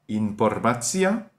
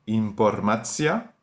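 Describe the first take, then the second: Both takes have the same delivery.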